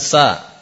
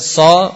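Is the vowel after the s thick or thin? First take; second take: thin; thick. First: The syllable is thin with a bright vowel. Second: The syllable is thick with a dark vowel. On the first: The speaker calls it wrong. "bukan sa" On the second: The speaker calls it right. "Jadi bacanya dengan so"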